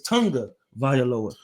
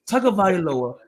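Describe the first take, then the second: First: The name is said with an N sound. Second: The name is said with no N sound. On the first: This is how people actually say the name. "when you pronounce it, it's Tunga Vailoa" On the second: This is how the name is spelled. "There's no N in his name"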